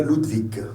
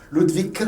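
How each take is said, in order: First: "Ludwig" ending in a voiced G; final G sounded. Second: Higher "Ludwig" ending in a K; final G as K. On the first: Teacher giving one of three correct endings, voiced G. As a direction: say "Ludwig" as LOOD-vig, not vik. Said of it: "c'est un G". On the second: Teacher giving one of three correct endings, K sound. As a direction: say "Ludwig" as LOOD-vik, pitch up. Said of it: "un K". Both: Shown as a demonstration.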